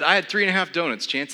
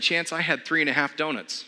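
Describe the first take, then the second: First: Repeated louder and higher, spelled out. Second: A laughing, slightly higher admission; sheepish confession. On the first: Repeating the donut count to his startled trainer, louder. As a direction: say it again, louder, owning it. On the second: Confessing his breakfast to his trainer friend, laughing sheepishly. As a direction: own up to it with a guilty laugh. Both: Retold or imitated.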